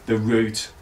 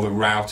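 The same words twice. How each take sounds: First: It is said in a non-American accent. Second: It is said in an American accent.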